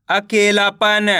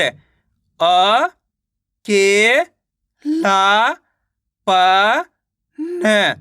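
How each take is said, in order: First: Said in the usual way. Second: "अ, के, ला, प, न" one by one with pauses; teacher's broken-up "अ, के, ला, प, न"; sounding out syllables. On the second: Shown as a demonstration. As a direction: stretch "अ", "के", "ला", "प" upward, then drop on "न". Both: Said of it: "तो मिलके बन जाएगा".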